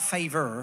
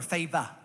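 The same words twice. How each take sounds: First: It is said in a non-Australian accent. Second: It is said in an Australian accent. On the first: The speaker calls it wrong. "not favor" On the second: The speaker calls it right. "F-A-V-A, favor. That's an Australian way of saying it"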